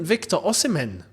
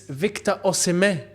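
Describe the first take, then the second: First: The surname ends with a clear N sound. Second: The surname ends without any N sound. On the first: The speaker calls it wrong. "his name isn't Victor Osimhen" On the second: The speaker calls it right. "it's Victor Osimhen. There's no N. It's a silent N"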